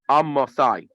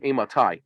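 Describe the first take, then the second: First: The first vowel is an 'a' sound. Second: The first vowel is an 'e' sound. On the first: "with a with a with a patach" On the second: "You have it with the tzerei"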